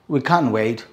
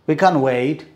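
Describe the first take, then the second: No difference in how they are said.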